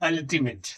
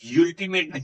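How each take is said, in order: First: The word begins with a short 'uh' sound. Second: The word begins with a 'yoo' sound. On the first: The speaker calls it right. "छोटा आ पढ़ा" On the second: The speaker calls it wrong. "यूल्टीमेट नहीं"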